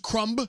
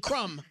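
First: The final b is clearly pronounced. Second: The final b is not pronounced. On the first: The speaker calls it wrong. "Nobody says crumb" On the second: The speaker calls it right. "They say crumb"

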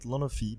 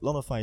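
First: The name is said with French pronunciation. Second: The name is said with English pronunciation. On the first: "in French we say it Lonofi" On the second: "but Lonofi is pretty good as well"

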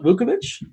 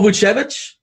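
First: The middle consonant is a hard k sound. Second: The middle consonant is a ch sound. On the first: The speaker calls it wrong. "then pronounce it correctly" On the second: The speaker calls it right.

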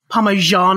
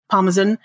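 First: It is said with a North American pronunciation. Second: It is said with a non-American pronunciation. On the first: "as you North Americans say" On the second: "as I would say"

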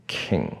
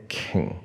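Both takes have the same delivery.

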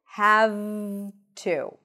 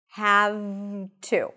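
Both takes have the same delivery.

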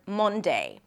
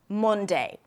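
No difference in how they are said.

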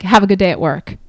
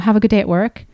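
First: It is said in a mean, short tone. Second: It is said in a warm, friendly tone.

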